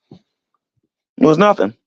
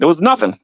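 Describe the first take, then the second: First: "It was nothing" stretched very slowly, each word drawn out; dragged out. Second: Said in the usual way. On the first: Shown as a demonstration. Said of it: "drawn-out repeat".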